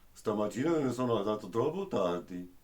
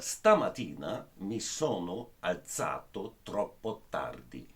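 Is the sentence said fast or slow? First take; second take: fast; slow. First: It is said quickly, following the sentence melody. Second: It is said slowly and carefully, word by word. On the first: "I just do the melody and I don't uh, manage to pronounce very good in this speed" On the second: "I repeat it word per word, really the most exact uh, possible"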